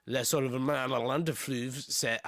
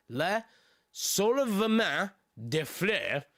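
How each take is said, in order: First: Said in the usual way. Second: Slow, deliberate French name, word by word; measured second attempt at "Le Soulèvement des Fleuves"; careful retake. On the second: Real, not acted. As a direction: spell out "Le Soulèvement des Fleuves" slowly with pauses.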